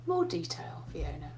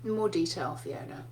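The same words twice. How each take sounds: First: Unvoiced whisper of a patient old professor. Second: A hint of a patient old professor, low and soft; lightly voiced old professor asking for more detail. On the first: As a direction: breathe the reminder like a quiet nudge. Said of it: "He goes". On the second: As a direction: gently nudge your student over your glasses. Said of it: "he would kind of go".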